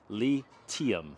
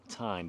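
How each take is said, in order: First: The name is said like 'lithium'. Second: The name is said like 'lie-time'. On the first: The speaker calls it right. "The correct pronunciation of the company is lithium" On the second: The speaker calls it wrong. "it looks like it's pronounced Time"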